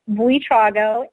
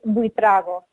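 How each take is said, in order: First: The name is said with an English pronunciation. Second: The name is said with a Spanish pronunciation. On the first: "as you say it, say it in the English or American pronunciation" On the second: "In Spanish, it's Buitrago"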